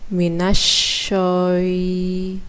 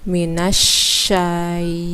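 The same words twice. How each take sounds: First: The vowel after sh is rounded, like o. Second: The vowel after sh is an open a. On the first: The speaker calls it wrong. "bukan minasyai" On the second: The speaker calls it right. "tapi minasyai"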